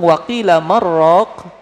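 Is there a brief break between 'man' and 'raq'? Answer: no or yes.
no. Man and raq run together without stopping. The vegetable broth said something. The speaker calls it wrong.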